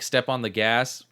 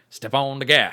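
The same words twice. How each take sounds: First: It is said in a plain normal voice. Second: It is said in a weird, Texas-like drawl.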